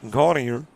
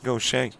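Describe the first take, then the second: First: It sounds like the English word 'gaudier'. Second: It sounds like 'go-shay', ending in a 'shay' sound. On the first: This is how outsiders would read the name. "which to you and I would be gaudier" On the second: This is how locals from Louisiana say the name. "to folks who originate from Louisiana, it's Gaucher"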